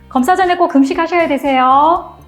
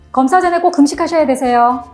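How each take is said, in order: First: It is said softly with a long final syllable. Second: It is said fast with a short, clipped ending. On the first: The speaker sounds kind and friendly. The speaker calls it right. "끝음절을 부드럽게 길게" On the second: The speaker sounds busy and commanding. The speaker calls it wrong. "말이 빨라지고 다소 명령적으로 들리게"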